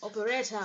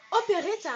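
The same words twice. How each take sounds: First: "Operetta" in an attempted English accent, lower. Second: OPERETTA called out high and louder; high announcement. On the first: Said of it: "avec l'accent, euh, anglais". (« Operetta » avec un accent anglais imité) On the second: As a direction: present "Operetta" with a high, showy lift. Annonce la poupée, puis précise l'accent. (« Operetta » annoncé d'une voix aiguë et forte) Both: Shown as a demonstration.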